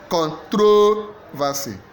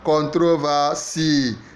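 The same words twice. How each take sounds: First: The stress is on the second syllable. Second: The stress is on the last syllable. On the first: "Second syllable" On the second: "So last syllable"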